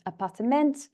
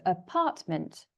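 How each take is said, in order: First: "appartement" in four syllables, stressed on final "ment"; four-beat Dutch "appartement" with MENT strongest; Dutch pronunciation. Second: "apartment" slowly, stressed on "part"; English "apartment" with PART as the strong beat; stress on second syllable. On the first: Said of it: "the stress is on the last syllable". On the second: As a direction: hit the middle syllable of "apartment". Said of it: "is on the second syllable". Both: Shown as a demonstration.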